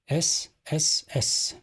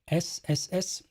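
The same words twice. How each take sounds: First: The hissing S sounds are sharp and harsh. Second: The hissing S sounds are softened and gentle. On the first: The speaker calls it wrong. "If I don't use it, ... it's not sexy, no" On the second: The speaker calls it right. "it's kind of uh, softened a little bit"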